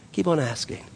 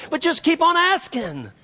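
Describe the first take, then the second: First: Said in the usual way. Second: "keep on asking" sung out very high, falling at the end; impassioned high cry on "keep on asking"; crying out the refrain. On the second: Real, not acted. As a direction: pitch "keep on asking" way up as a climax. Preacher cries out his refrain.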